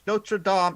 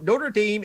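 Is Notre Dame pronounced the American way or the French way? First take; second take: French; American. First: It is said with a French pronunciation. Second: It is said with an American pronunciation. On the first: It names the cathedral in France. "One is pronounced correctly" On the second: It names the Indiana college. "the other one is pronounced American"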